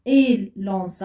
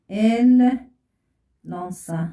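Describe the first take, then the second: First: Said in the usual way. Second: Slow dictation. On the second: Shown as a demonstration. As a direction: draw out "Elles lancent" word by word. Teacher dictates slowly while writing.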